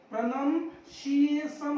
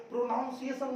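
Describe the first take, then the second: First: Slow प्रोनाउंसिएशन as "pra-nan-si-ey-san"; short vowels opening प्रोनाउंसिएशन, "pra-nan"; correct प्रोनाउंसिएशन. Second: प्रोनाउंसिएशन with "pro-naun" at the start; mispronounced प्रोनाउंसिएशन. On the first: Teacher giving the right form, प्रोनाउंसिएशन slowly as "pra-nan-si-ey-san". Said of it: "प्रोनाउंसिएशन होता है". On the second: Teacher rejecting what is taught, प्रोनाउंसिएशन with "pro-naun". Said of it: "प्रोनाउंसिएशन नहीं होता". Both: Shown as a demonstration.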